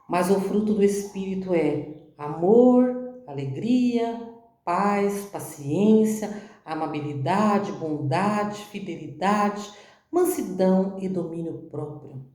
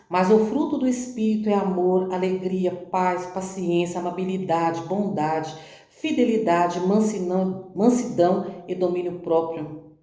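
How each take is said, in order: First: It is read very slowly. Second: It is read at a normal pace.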